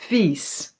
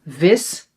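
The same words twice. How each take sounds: First: "vies" with a long "ee" sound; "vies" held on its ie; long vowel. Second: "Vis" with a short i, as in "bit"; "Vis" said with a quick "ih"; short vowel. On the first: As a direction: draw out "vies" like "veess". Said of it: "the long E". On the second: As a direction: keep the i in "Vis" brief. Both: Shown as a demonstration.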